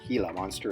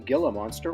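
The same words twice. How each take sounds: First: Gila is said with a Spanish pronunciation. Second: Gila is said with an English pronunciation.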